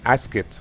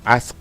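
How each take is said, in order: First: The ending is said as an extra syllable. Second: The ending is a bare consonant, one syllable. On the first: The speaker calls it wrong. "ya no se pronuncia asked" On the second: The speaker calls it right. "sino ask"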